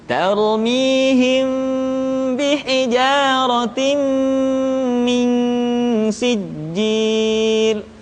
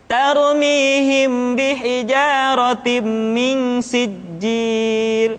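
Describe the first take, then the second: First: The nasal sounds are held long and unhurried. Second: The nasal sounds are rushed, not held. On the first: The speaker calls it right. "tahan suaranya, tidak boleh tergesa-gesa" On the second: The speaker calls it wrong. "Kita tidak boleh membaca seperti ini"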